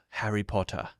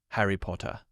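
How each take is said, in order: The two takes are said the same way.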